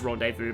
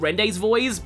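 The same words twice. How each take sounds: First: The word is pronounced the French way. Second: The word is pronounced in a non-French way. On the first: The speaker calls it right. "I know it's Rendezvous" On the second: The speaker calls it wrong. "it's funny to mispronounce French words"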